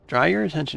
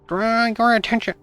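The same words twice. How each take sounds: First: It is said in the speaker's normal voice. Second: It is said in a put-on frog-puppet voice.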